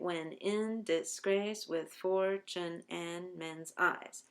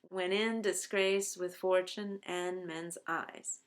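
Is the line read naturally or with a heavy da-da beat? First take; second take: heavy beat; naturally. First: Every second syllable is hit with heavy stress. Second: The line is read with natural speech rhythm. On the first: "The ten syllables in the meter of da-da" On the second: "line one follows that rhythm perfectly"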